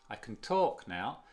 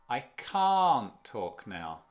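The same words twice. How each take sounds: First: "can" reduced and unstressed, the weight on "talk"; weak can. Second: "can't" long, loud and open with a rounded A, final T unheard. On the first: Teacher setting up the contrast with the negative, weak "can". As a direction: glide over "can" and land on "talk". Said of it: "y ese es". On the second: Teacher contrasting it for learners, strong rounded "can't". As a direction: stretch and stress "can't", dropping its T. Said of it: "El A es mucho más redondeado". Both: Shown as a demonstration.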